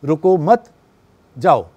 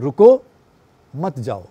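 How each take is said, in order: First: रुको मत as one unit, a beat, then falling जाओ; pause after मत. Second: रुको rising, a beat, then falling मत जाओ; pause after रुको. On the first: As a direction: hold the break until after मत. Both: Shown as a demonstration. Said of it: "हम pause का सहारा लेते हैं".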